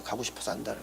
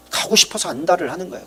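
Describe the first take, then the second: First: Quiet echo. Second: Said in the usual way. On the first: Shown as a demonstration. Preacher echoing his own line softly. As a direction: repeat 가고 싶어서 안달을 much softer, falling away.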